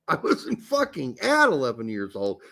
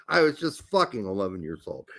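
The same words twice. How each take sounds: First: AT singled out and lifted in pitch; stress on AT. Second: "fucking" low and run straight into "eleven"; no break after FUCKING. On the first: Host correcting a co-host's misreading, stress on "at". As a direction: lean hard on "at" to deny it. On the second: Host clarifying his age, "fucking" unstressed before "eleven". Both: Shown as a demonstration.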